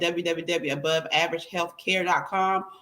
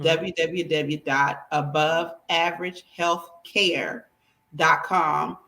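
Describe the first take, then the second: First: It is said at a quicker pace. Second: It is said at a slower pace.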